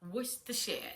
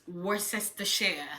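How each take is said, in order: First: The middle sounds are dropped, making it shorter. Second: Every written syllable of the word is pronounced. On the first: The speaker calls it right. "the proper pronunciation of that word is Worcestershire" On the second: The speaker calls it wrong. "If you want to pronounce it the way it's being spelled"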